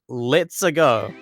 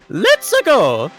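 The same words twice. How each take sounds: First: It is read out in a plain normal voice. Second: It is said in a put-on character voice.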